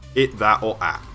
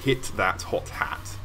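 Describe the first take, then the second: First: The h sounds are dropped from every word. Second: Each word starts with a clear h sound. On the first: "In the north, specifically where I'm from, it would be" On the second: "you might say"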